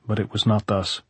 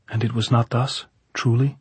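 First: Not thus settled with a fall; firm answer, closing down on not; falling statement. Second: Not thus asked with a rise at the end; doubting question, lifting up on truly; rising question. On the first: Lover answering Maria, tune falling on not thus. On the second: Maria pressing her lover, tune rising on not thus. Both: Acted.

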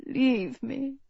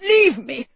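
First: Muttered. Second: Sharp, raised bark of command. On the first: Sick king dismissing his nurse, muttered. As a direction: mutter it softly under your breath. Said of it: "he muttered". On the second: Sick king ordering his nurse away, barked. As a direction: bark it out to send someone away. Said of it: "he barked". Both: A narrator's reading.

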